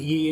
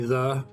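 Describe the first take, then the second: First: The word begins with a 'y' sound. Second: The word begins with a 'th' sound. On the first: The speaker calls it wrong. "isn't pronouncing it ye incorrect?" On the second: The speaker calls it right. "Like it's supposed to be the"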